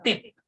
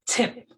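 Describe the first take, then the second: First: The t is soft, without a puff of air. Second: The t is strong, with a puff of air. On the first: The speaker calls it wrong. "Imbis na" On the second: The speaker calls it right. "emphasize natin"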